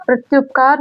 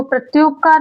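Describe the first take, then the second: First: "प्रत्युपकार" with a short u, as prat-yup-kaar; short "yup" in the middle of "प्रत्युपकार"; correct short vowel. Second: "प्रत्युपकार" with a long oo, as prat-yoop-kaar; long "yoop" in the middle of "प्रत्युपकार"; wrong long vowel. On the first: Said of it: "प्रत्युपकार होगा". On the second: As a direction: say "प्रत्युपकार" stretching the yu to yoo. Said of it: "प्रत्युपकार नहीं होगा". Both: Shown as a demonstration.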